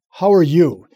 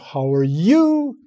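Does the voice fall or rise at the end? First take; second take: fall; rise. First: The voice falls at the end. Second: The voice rises at the end. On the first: It sounds commanding and demands a response. The speaker calls it right. "Gets her attention" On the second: It leaves a question in the listener's mind. The speaker calls it wrong. "Instead of"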